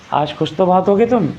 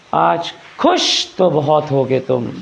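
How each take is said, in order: First: Said in the usual way. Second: Slow theatrical आज खुश तो बहुत होगे तुम with stretched vowels; slow, drawn-out stage line; dramatic stage delivery. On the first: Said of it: "normally तो बोल सकता था वो". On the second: Shown as a demonstration. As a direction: deliver it like a film villain, slowly. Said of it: "नाटकों में कैसे कहते हैं".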